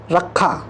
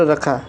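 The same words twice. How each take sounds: First: रखा with a doubled, punched kh; रखा with the kh held long; incorrect form. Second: Said in the usual way. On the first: Shown as a demonstration. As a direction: say रखा as a misspelling, "rak-kha". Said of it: "जबकि शुद्ध रूप हमारा". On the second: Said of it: "जबकि हमारा".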